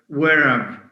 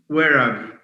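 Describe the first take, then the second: The two takes are said the same way.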